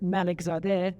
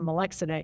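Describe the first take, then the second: First: The name is said with its full Persian sounds. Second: The name is said in a shortened English form. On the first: This is the family's original form of the name. "which is the Persian version" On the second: This form was adapted for life in America. "Americanize it to Malexide"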